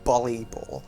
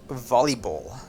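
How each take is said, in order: First: The word begins with a B sound. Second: The word begins with a V sound. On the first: The speaker calls it wrong. "I believed it was pronounced volleyball with a B. Like B for boy" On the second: The speaker calls it right. "the word volleyball with a V, as I'm now aware of"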